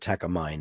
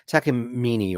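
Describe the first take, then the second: First: The name is said in the American way. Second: The name is said in a non-American way.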